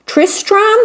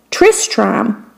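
First: Queen voice much higher, rising question; high, hopeful queen guessing Tristram; queen asking. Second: Said in the usual way. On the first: Acted. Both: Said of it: "Did you say Tristan or Tristram".

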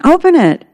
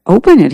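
First: High-pitched little voices chiming in. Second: Husband's firm urging, slightly raised pitch; higher, louder prompt to open it; Garrett. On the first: Kids echoing their father about the email, high-pitched chiming in. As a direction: pipe up much higher, as an eager echo. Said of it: "The kittens chimed in". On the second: Husband urging his wife to open the email, a raised, emphatic prompt. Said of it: "he said". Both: A narrator's reading.

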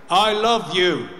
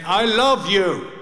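First: Tender goodbye. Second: Slow, higher I love you, each word spelled out; repeated slowly. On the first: Son to his dying father, gentle and sincere. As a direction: say it gently to your father one last time. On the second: Son repeating to his deaf father, slow and clear. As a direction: say it again slowly so he can hear. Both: Retold or imitated.

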